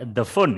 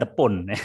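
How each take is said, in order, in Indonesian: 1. Phone diawali dengan bunyi f. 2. Phone diawali dengan bunyi p. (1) "kita ngomong F"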